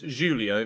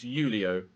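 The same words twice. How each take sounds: First: The name is given a Portuguese pronunciation. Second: The name is given a Spanish pronunciation. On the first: "if it's Portuguese, then it's Julio" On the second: "if it's Spanish, then it's Julio"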